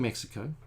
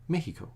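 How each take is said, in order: First: The middle has a clear 'ks' sound. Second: The middle has no 'ks' sound. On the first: This is how English speakers say it. "we say Mexico in Anglo world" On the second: This is how people from the country say it. "They say Mexico, something like that. They don't say the X"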